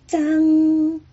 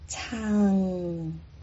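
First: The word starts with an unaspirated consonant. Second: The word starts with an aspirated consonant. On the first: This is the reading used in words for great-grandchild and great-grandfather. "第二个是之之安张" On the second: This is the reading used in the word for 'once'. "第一个是吃吃安仓仓"

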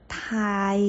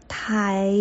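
Both takes have the same delivery.

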